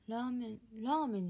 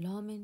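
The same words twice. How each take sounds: First: The pitch drops after the first syllable. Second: The pitch stays level across the word. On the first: This is the usual way to say it. "ラーメンじゃなくて" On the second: This is how her family or region says it. "ラーメンって呼んでた。 そうイントネーション違うの"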